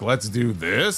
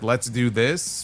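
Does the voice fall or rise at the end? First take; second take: rises; falls. First: The voice rises at the end, like a question. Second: The voice falls at the end, like a statement.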